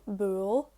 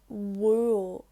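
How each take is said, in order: First: The word begins with a B sound. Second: The word begins with a W sound. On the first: "It changes then from bual" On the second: "it's pronounced like a W"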